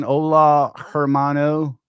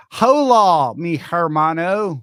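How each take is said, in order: First: Said in the usual way. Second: Loud, high call, last word drawn out; hammed-up greeting. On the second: Host playfully re-does a viewer's hello, big loud call. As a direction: belt out the Spanish greeting.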